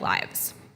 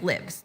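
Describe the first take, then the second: First: It is said with the noun pronunciation. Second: It is said with the verb pronunciation. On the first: It is the plural of life. "if it's a noun, ... I pronounce it like lives" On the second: It means someone resides somewhere. "if instead that word is a verb, then I'm going to pronounce it like lives"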